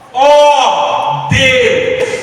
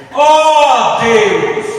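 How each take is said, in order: First: It is said as an intense, fervent cry. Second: The same.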